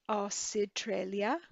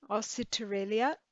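First: A vowel sound separates the s and t. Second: The same.

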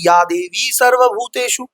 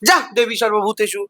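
First: It is said in a calm, devotional way. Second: It is said in a harsh, commanding way. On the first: The words carry devotion. The speaker calls it right. "ওনার এই কণ্ঠে ওটা শুনতে ভাল লাগে" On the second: The words carry no devotion. The speaker calls it wrong. "শুনতে ভাল লাগতো?"

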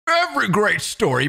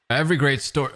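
First: It is read in an imitated character's voice. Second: It is read in the speaker's own normal voice.

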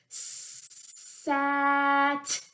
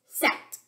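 First: The word is stretched out slowly, sound by sound. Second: The word is said quickly as one short unit. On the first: "you're going to say a word slowly without stopping between the sounds" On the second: "Say it fast"

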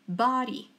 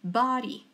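First: It is said in an American accent. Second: It is said in an American accent.

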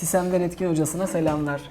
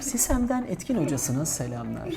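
First: The voice sounds plain, without any echo. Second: The voice sounds echoey, like a reverberating announcement.

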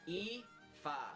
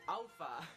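First: The name is said as 'EE-fa' with no L sound. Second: The name is said as 'AL-fa' with an L sound. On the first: The speaker calls it right. "it's pronounced Aoife" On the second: The speaker calls it wrong. "not Alpha, as a lot of people pronounce it"

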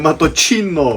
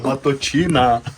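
First: The word ends in an 'o' sound. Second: The word ends in an 'a' sound. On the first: The speaker calls it wrong. "Не маточино!" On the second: The speaker calls it right. "А маточина!"

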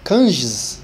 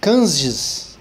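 No difference in how they are said.

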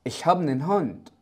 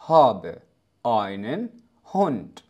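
First: Einen shrinks to a bare n sound. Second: Every word is pronounced fully without shortening. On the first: It is used in informal conversation. "بطريقة أكثر عامية ... بدلا من einen أصبحت نن نن" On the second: It is the standard textbook form. "هذه جملة طبيعية لأي شخص يتحدث بشكل طبيعي، وكما لو أنك تقول بلغة العربية الفصحى"

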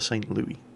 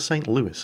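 First: The name is pronounced a non-American way. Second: The name is pronounced the American way. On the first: This is how outsiders might say it. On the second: This is how the city's own people say it.

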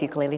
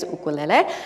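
First: The word is said with American mainland pronunciation. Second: The word is said with Hawaiian pronunciation. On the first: "I'll use ukulele tonight since, you know, we're on the mainland" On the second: "the proper Hawaiian pronunciation is ukulele"

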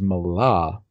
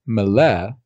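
First: The word ends in an 'ah' vowel. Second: The word ends in an 'eh' vowel. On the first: "which is Mala in Hebrew" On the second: "I'm going to pronounce them as far as OBRY"

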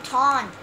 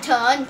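First: The vowel sounds like 'aw', as in 'haunt'. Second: The vowel sounds like 'uh', as in 'hut'. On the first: The speaker calls it right. "it's a taunt" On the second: The speaker calls it wrong. "Stop calling it a tunt"

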